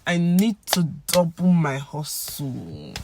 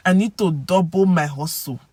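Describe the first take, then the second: First: Slow, with "to" as TOO; "to" as "too", "hustle" drawn out as HOS-soo; general pidgin pronunciation. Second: "to" as TOH, "hustle" as HOS-so; regional Nigerian pronunciation. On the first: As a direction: stretch it out, "to" said with an OO vowel. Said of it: "But for general pidgin". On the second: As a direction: round "to" into an O. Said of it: "they will say to". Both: Shown as a demonstration.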